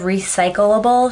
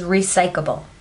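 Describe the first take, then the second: First: Both L sounds are pronounced in the word. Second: One L sound is dropped from the word. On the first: The speaker calls it right. "instead of recyclable" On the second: The speaker calls it wrong. "she misses an L in the word"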